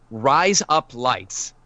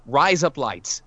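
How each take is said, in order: First: "Rise up lights" said slowly like "razor blades" in Australian; slow, drawn-out "Rise up lights" sounding like Aussie "razor blades"; Australian demo. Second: "rise up lights" run together at normal pace like Aussie "razor blades"; quicker "rise up lights" blending into "razor blades"; Australian demo. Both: Shown as a demonstration. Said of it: "you're already saying razor blades in Australian".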